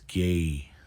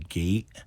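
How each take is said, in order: First: The word ends without a glottal stop. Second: The word ends with a glottal stop. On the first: The speaker calls it right. "no glottal stop in four" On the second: The speaker calls it wrong. "Some people will glottal stop this"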